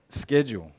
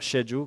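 First: The word begins with an 's' sound. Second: The word begins with a 'sh' sound. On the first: The speaker calls it right. "they all start with S" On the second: The speaker calls it wrong. "Not schedule, because that wouldn't work with that sound"

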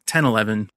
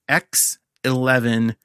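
First: The first part is said as the number ten. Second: The first part is said as the letter X. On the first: The speaker calls it wrong. "not 10.11" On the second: The speaker calls it right. "I'm pretty sure this is how I'm pronouncing it"

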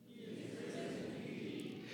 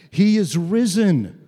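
First: It is said moderately, as if to friends. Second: It is said loudly, as if to everyone.

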